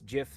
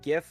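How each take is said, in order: First: It begins with a soft G sound. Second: It begins with a hard G sound. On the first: "GIF like giraffe" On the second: "GIF like a gift"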